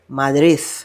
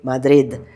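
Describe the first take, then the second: First: It is said the way Madrid locals do. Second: It is said the way Madrid locals don't.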